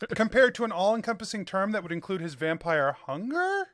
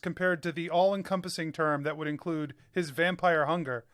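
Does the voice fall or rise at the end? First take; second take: rise; fall. First: The voice rises at the end. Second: The voice falls at the end. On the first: It is a question. The speaker calls it right. "end with an inflection" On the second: It is a statement. The speaker calls it wrong. "it was a statement of fact"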